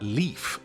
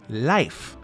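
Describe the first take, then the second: First: The name is pronounced the English way. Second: The name is pronounced the Norwegian way.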